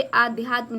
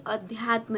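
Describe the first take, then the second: First: आध्यात्म opened with a long "aa"; wrong long vowel. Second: अध्यात्म opened with a short "a"; corrected short vowel. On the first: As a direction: stretch the first vowel of आध्यात्म. (आध्यात्म में पहला आ लंबा बोलें) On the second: (अध्यात्म में पहला अ छोटा बोलें) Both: Shown as a demonstration. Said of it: "आ की मात्रा नहीं रहेगी".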